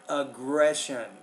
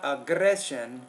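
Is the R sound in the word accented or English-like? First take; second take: English-like; accented. First: The R sound is pronounced as an English R. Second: The R sound is pronounced like a non-English R. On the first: The speaker calls it right. "but aggression" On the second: The speaker calls it wrong. "not aggression"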